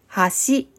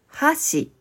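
First: The pitch is high on the second syllable. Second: The pitch is high on the first syllable. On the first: It means a bridge. "二つ目の橋は川や海を渡ることができるように作られた道のことです" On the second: It means chopsticks. "一つ目の箸は食事をするときに使う2 本の棒のことです"

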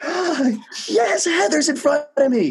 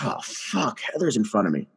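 First: It sounds happy and delighted. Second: It sounds miserable and dismayed.

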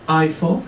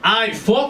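First: It is asked in a calm, neutral way. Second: It is asked in an aggressive way.

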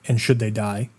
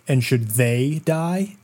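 First: It is said flatly, with no stress on 'they'. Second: It is said with strong stress on 'they'.

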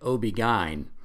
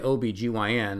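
First: The letters are run together into parts. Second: Each letter is spelled out separately. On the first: This is the Northern way of saying it. "if you're from the North, they say OB-GYN" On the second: This is the Southern way of saying it. "they don't say OBGYN"

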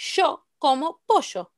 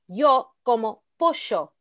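First: Both y and ll are said with sh. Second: The y and ll are said differently. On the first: The speaker calls it right. "That's fine" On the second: The speaker calls it wrong. "You can't say"

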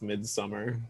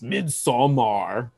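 First: The second syllable is said like 'sum'. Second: The second syllable is said with an O vowel. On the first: The speaker calls it right. "it's spelled with an O, but it's pronounced Midsommar" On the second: The speaker calls it wrong. "which people frequently mispronounce as Midsommar"

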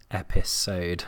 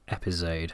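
First: The middle consonant sounds like an s. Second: The middle consonant sounds like a z. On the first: The speaker calls it right. "so I've also been trying to say episode" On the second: The speaker calls it wrong. "I've realised that I also say episode"

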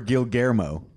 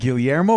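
First: The middle of the name has an l-g sound. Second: The middle of the name has a y-like sound. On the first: The speaker calls it wrong. "It is not Gilgermo" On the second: The speaker calls it right. "It's Guillermo"

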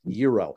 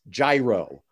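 First: It is said with a Greek pronunciation. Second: It is said with an American pronunciation.

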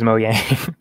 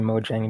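First: The middle consonant sounds like English y. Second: The middle consonant sounds like English j. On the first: The speaker calls it right. "but you're right. It is Mojang" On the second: The speaker calls it wrong. "I just always say Mojang because it has a J"

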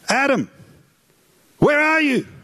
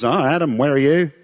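First: It is called out in a worried, anxious way. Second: It is called out without any worry.

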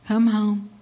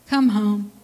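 No difference in how they are said.

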